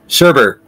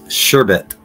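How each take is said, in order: First: The second syllable has an 'r' sound. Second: The second syllable has no 'r' sound. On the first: The speaker calls it wrong. "Here's another one I'm guilty of" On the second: The speaker calls it right. "But it's sherbet"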